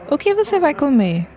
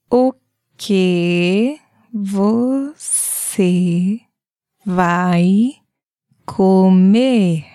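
First: It is said at normal speed. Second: It is said slowly.

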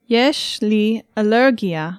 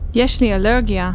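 First: It is said slowly. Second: It is said at normal speed.

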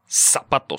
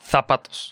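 First: The word begins with an S sound. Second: The word begins with a TH sound. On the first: This is how it is said in Latin America. "An S sound at the beginning" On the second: This is how it is said in Spain. "with a Zapatos. TH sound"

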